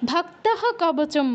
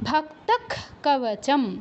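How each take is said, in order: First: The first word ends with an h sound. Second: The first word ends with a k sound. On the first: This is ordinary reading without chanting. "Chanting না করলে ভক্তহ কবচম বলবো" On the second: This is chanted recitation that keeps the meter. "বিসর্গস্থলে ক্ষয় হসন্ত উচ্চারণ করব"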